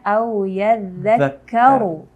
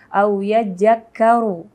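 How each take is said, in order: First: The consonant after 'ya' is a 'dh' sound. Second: The consonant after 'ya' is a 'j' sound. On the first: The speaker calls it right. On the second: The speaker calls it wrong. "banyak juga yang tertukar dengan huruf jim"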